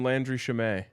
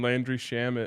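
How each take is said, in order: First: The surname is said a different way. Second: The surname is said the usual way. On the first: The speaker calls it wrong. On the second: The speaker calls it right.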